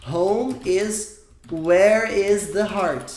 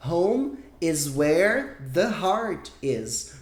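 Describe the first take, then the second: First: "Home is where is the heart" said slowly, louder, as the wrong version; slow, deliberate "Home is where is the heart" to flag the error; wrong order. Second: "Home is where the heart is" said slowly and clearly as the right version; slow, model "Home is where the heart is"; correct order. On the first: Teacher shows students the wrong word order, slow and deliberate. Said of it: "O que eu não posso deixar você fazer é falar". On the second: Teacher gives the correct sentence, slow and clear. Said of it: "tem que ser". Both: Shown as a demonstration.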